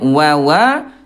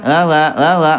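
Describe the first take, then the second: First: The wa is crisp with strongly pushed-out lips. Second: The wa is mumbled without clear lip rounding. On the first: The speaker calls it right. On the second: The speaker calls it wrong. "jangan sampai enggak jelas"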